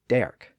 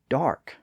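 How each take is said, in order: First: The vowel is an 'er' sound. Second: The vowel is an 'ar' sound. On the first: This is the older pronunciation. "previously pronounced derk" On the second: This is the modern pronunciation. "kept the newer R sound"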